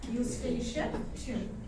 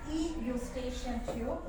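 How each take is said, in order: First: The word starts directly without an extra sound. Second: An extra 'ee' sound comes before the word. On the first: The speaker calls it right. "you will just say Eustachian tube" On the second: The speaker calls it wrong. "You won't say E Eustachian tube"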